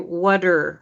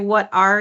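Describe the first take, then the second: First: 'Are' is reduced and joined, sounding like 'whatter'. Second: 'Are' is said as a full separate word. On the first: The speaker calls it right. "We'd say, "Whatter, whatter," like a cow's udder" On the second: The speaker calls it wrong. "We wouldn't say"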